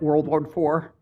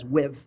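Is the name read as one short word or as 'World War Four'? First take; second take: World War Four; one word. First: The name is read out as three words. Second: The name is said as one short word. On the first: This is how the speaker always said it. "I always called this uh, W W I V, or pronounced it World War Four" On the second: This is how people in that region say it. "everyone in the Baltimore region just says W I V"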